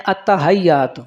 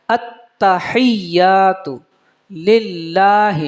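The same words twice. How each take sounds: First: التحیات said quickly with a plain ha, as many do; common mispronunciation. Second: التحیات drawn out slowly, with a clear hha and a zer under it; correct recitation. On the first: Teacher showing students the usual mistake on التحیات. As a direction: rattle off التحیات the common wrong way. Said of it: "اس کو اکثر آپ احباب پڑھتے ہیں". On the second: Teacher giving the correct slow recitation of التحیات. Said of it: "حالانکہ حقیقت میں زیر ہے". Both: Shown as a demonstration.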